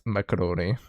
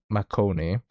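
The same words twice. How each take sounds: First: "macaroni" in four syllables; "macaroni" with the extra middle syllable; pronounced macaroni. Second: "Marconi" in three syllables; "Marconi" without the middle "a"; pronounced Marconi. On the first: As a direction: say "macaroni" as mac-a-RO-nee. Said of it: "and not macaroni". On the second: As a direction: say "Marconi" as mar-CO-nee, no extra syllable. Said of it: "I realized it says Marconi". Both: Shown as a demonstration.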